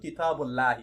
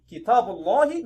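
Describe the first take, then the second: First: The L sound is light and thin. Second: The L sound is heavy and thick. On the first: The speaker calls it wrong. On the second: The speaker calls it right. "we read it thickly and not lightly"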